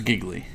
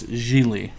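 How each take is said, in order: First: The middle g is clearly sounded, like giggly. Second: The middle g is silent, sounding like Geely. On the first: The speaker calls it wrong. "that's giggly" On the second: The speaker calls it right. "but it's Gigli"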